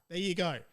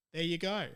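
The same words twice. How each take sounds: The two takes are said the same way.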